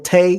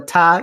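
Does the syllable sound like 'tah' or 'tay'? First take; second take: tay; tah. First: The vowel sounds like the 'ay' in 'day'. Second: The vowel sounds like the 'a' in 'father'. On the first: The speaker calls it wrong. "there is no tay" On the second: The speaker calls it right. "there's a ta in Puerto Rico"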